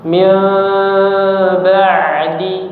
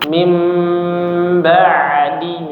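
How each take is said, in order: First: A small gap stays between the lips. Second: The lips close gently on the nasal sound. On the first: "bibirnya tidak rapat, tapi ada sedikit celah" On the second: "merapatkan kedua bibir dengan lunak, lembut"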